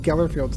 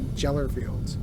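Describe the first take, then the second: First: The word begins with a hard G sound. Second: The word begins with a J sound. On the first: The speaker calls it right. "I've always thought it was Gellerfields" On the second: The speaker calls it wrong. "not Jellerfields. I think she mispronounced it"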